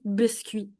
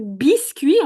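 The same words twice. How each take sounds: First: The i vowel is lax and more central. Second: The i vowel is tense and peripheral. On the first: This is the Quebec French pronunciation. "le I québécois ... on dit biscuit" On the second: This is the standard French pronunciation. "Au lieu de dire biscuit"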